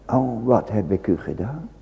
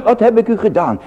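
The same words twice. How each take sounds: First: "wat heb ik u gedaan" sighed low and much softer, rising on wat; hushed lament. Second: "wat heb ik u gedaan" cried out higher, stress on heb; God's pleading voice. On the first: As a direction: sigh it quietly to yourself. Soft echo of God's plea. (zacht en laag verzucht "wat heb ik u gedaan") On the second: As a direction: call it out as the Lord pleading. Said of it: "De Heere gaat zelf antwoord geven". (luid en hoog uitgeroepen, klem op "heb") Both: Acted.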